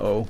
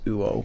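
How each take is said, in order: First: It is a plain o vowel with no glide. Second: It begins with a w glide before the vowel. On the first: "it's just pronounced as a o" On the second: "which actually was pronounced uo"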